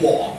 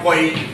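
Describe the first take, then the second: First: The syllable sounds like kwa. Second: The syllable sounds like koy. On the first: The speaker calls it right. "The pronunciation is qua" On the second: The speaker calls it wrong. "not koi"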